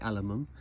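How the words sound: It is said the American way, aluminum.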